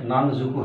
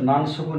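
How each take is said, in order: First: "নান জুকু" with s voiced to j; changed pronunciation. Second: "নান সুকু" with an unchanged s sound in সুকু; uncombined form. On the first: Japanese teacher shows learners the sound change, "নান জুকু" with j. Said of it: "নান জুকু হয়ে যাবে". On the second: Japanese teacher shows learners the form not used, uncombined "নান সুকু" with s. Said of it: "নান সুকু না হয়ে". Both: Shown as a demonstration.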